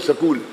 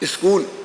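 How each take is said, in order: First: An 'a' vowel is added between s and k. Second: An 'i' vowel is added before the s. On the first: This is how southern speakers say it. "दक्षिण वाले सकूल सकूल करते हैं" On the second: This is how northern speakers say it. "उत्तर वाले ई स्पष्ट बोलने लग गए"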